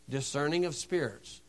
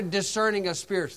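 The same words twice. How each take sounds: First: A soft echo on "Discerning of spirits"; quiet repeat. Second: Said in the usual way. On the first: Shown as a demonstration. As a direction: repeat it softer, letting "Discerning" settle low.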